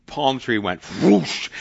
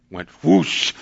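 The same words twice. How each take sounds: First: Slow, drawn-out whoosh as the palm tree goes up; whoosh sound effect. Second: A quicker whoosh like a burst of fire; punchy mimicked whoosh of flames; whoosh sound again. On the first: Retold or imitated. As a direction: stretch out whoosh like flames catching. Firecracker sets tree ablaze. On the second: Repeats the tree catching fire.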